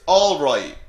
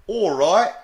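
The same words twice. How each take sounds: First: Said in the usual way. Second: Rising English-accented greeting, louder and higher. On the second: Shown as a demonstration. Teacher showing how the English say it, English accent. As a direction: do a lively English "all right?". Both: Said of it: "they'd, of course, say it like".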